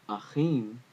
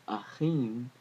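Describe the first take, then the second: Both takes have the same delivery.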